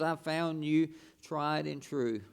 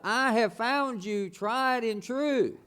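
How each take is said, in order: First: It is said at normal volume. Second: It is said loudly.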